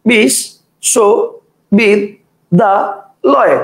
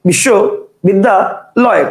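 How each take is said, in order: First: The word is broken into five separate chunks. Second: The word is broken into three separate chunks. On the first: "একজন বলবে বিশ, শো, বিদ, দা, লয়, কটা হলো? পাঁচটা।" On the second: "কেউ উচ্চারণ করবে বিশ্ব বিদ্যা লয়, কটা হলো? তিনটা।"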